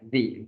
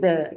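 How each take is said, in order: First: The vowel is a long 'ee' sound. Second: The vowel is a short, weak 'uh' sound. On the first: This form is used before a vowel sound. The speaker calls it right. "melainkan the" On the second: This form is not used before a vowel sound. The speaker calls it wrong. "bukan bukan lagi the"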